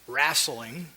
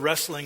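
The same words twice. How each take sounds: First: It is said in a southern Indiana accent. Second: It is said in the speaker's standard accent.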